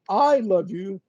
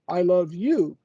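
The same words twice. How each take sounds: First: The stress is on the word I. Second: The stress is on the word you. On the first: Nobody else in the world loves you. "means that nobody else in the world loves you" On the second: It is you who is loved, not anyone else. "I don't love your neighbor, I don't love your wife, your dog"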